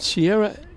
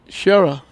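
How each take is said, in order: First: The name begins with a plain s sound. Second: The name begins with a sh sound. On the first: The speaker calls it wrong. "I've been saying Sierra Collins all year long" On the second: The speaker calls it right. "they told me it's Shera"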